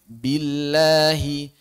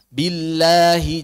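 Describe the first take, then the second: First: "billahi" slowly with a clean light lam; correct billahi. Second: "Billahi" pressed, slow and nasal; wrong billahi. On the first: Teacher modelling the correct lam after the wrong one. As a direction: model the right "billahi" gently. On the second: Teacher giving the mistaken reading first, slowly. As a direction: show the wrong heavy "Billahi". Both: Shown as a demonstration. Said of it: "jangan dibaca billahi".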